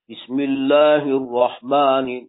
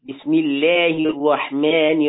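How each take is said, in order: First: The vowels are said heavy and thick. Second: The vowels are exaggerated the opposite way. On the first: "درشت" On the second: "از اون ور به اصطلاح افراط میکنن"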